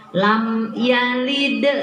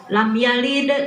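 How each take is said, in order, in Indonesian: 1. Bunyi m diucapkan penuh tanpa dengung sengau. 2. Bunyi m dilewati dengan cepat. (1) "sempurnakan mimnya lam yalid, nah kan nggak nggak dengung" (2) "nah itu mah loncat"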